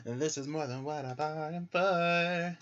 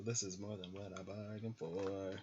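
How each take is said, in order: First: Higher, louder mock-dramatic repeat; this is more than what I bargained for, hammed up higher; overwhelmed. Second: Said in the usual way. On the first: Real, not acted.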